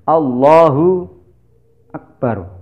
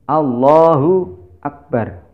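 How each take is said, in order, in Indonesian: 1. Ada jeda panjang yang memisahkan Allah dan akbar. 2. Ada jeda panjang yang memisahkan Allah dan akbar.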